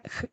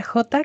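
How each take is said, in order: First: "J" as a throaty h sound only, no vowel. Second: "J" said as its name "jota"; name the letter: jota. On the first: Teacher sounding out the J for the class. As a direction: breathe out the raspy jota sound alone. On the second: Teacher naming the letter before its sound. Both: Shown as a demonstration. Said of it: "que se pronuncia J".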